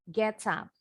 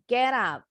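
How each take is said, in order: First: The T is pronounced as a clear T. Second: The T is pronounced like a quick D. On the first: "Boleh dengan T yang jelas. Kayak orang Inggris" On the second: "Or the T sounds like a quick D in American English"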